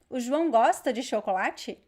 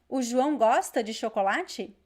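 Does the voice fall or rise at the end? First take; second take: rise; rise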